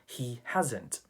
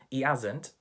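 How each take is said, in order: First: The h sound at the start of 'hasn't' is pronounced. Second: The h sound at the start of 'hasn't' is dropped. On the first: "instead of" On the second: "H is not pronounced"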